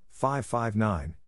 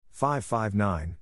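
No difference in how they are said.

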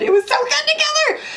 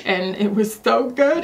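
First: Leaps way up in pitch on together; gushing high squeal. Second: Said in the usual way. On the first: Real, not acted. Beauty vlogger gushing to viewers over a lip color, squealing. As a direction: squeal it out with delight. Gushing repeat, much higher.

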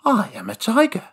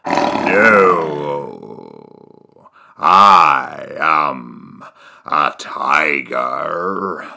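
First: Said in the usual way. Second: Very low, slow tiger voice; deep tiger voice. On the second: Acted. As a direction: drop deep and drag it out.

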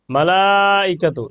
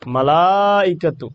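First: মালাইকাতু with the তু held four alif; long vowel stretch. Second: মালাইকাতু stretched four alif, slowly; long vowel stretch. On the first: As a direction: draw out মালাইকাতু very slowly. (মালাইকাতু — শেষে চার আলিফ টেনে) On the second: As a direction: draw out মালাইকাতু very slowly again. (মালাইকাতু — চার আলিফ লম্বা টান) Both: Shown as a demonstration. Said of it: "চার আলিফ টান দিব".

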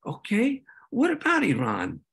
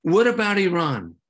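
First: Rising Okay then a dry what about Iran, stress on about; wry echo. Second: Loud challenging what about Iran, stress on What; deflecting question. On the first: Speaker echoing representatives' question back, wry and amused. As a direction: throw their own line back at them, amused. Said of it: "And I'd like". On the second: Representatives dodging disarmament, loud challenging question. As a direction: toss it back as a gotcha. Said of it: "they were like". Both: Retold or imitated.

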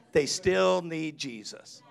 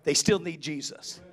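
First: Slowed right down, still leaned on; slow emphasis. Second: Said in the usual way. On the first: Shown as a demonstration. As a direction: let each word land slowly. Repeated for emphasis.

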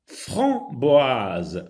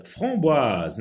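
First: Framboise said slowly, nasal vowel held long; drawn-out framboise. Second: Said in the usual way. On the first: Shown as a demonstration. Teacher to pupils, stretching the word slowly. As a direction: stretch out Framboise so the class hears the nasal sound. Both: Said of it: "vous sentez la différence".

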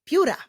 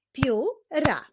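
First: Said in the usual way. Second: "Pióra" split into pió, ra with a gap; syllable by syllable. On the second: Shown as a demonstration. Teacher clapping out pióra, "Pióra" syllable by syllable. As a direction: break "Pióra" into two separate beats. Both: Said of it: "wyklaszczmy sylaby w wyrazie".

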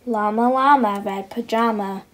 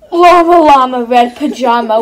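First: Said in the usual way. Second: Loud hammed-up wail. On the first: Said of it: "feels alone". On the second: Narrating baby llama wailing, loud hammed-up cry. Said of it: "wailing for his mama".

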